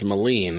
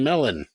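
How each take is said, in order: First: The name ends with a 'leen' sound. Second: The name ends with a 'lon' sound. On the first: The speaker calls it right. "That's how it's pronounced" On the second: The speaker calls it wrong. "nobody will mispronounce my name"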